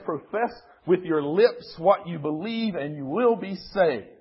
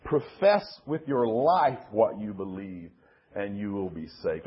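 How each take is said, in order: First: Higher-pitched, brisk quote leaning on "lips"; stress on lips. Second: Lower, measured quote leaning on "life"; stress on life. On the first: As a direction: set "lips" up as the contrast word. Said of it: "one says". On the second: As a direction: set "life" against the other version. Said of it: "And the other one says". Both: Shown as a demonstration.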